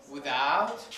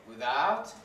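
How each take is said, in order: The two takes are said the same way.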